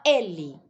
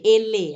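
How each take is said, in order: First: "ele" as Ê-li, ending light; stress on first E. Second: Loud "ele" as e-LÊ; "ele" with emphasis thrown onto the ending; wrong stress on LE. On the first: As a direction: say "ele" naturally, force on the first syllable. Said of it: "A gente fala ele". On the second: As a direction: hit the final LE of "ele" hard. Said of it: "Dando ênfase no le". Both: Shown as a demonstration.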